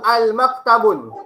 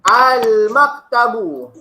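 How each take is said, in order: First: The word ends with an n sound. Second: The word ends in a vowel, with no n. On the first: The speaker calls it wrong. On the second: The speaker calls it right.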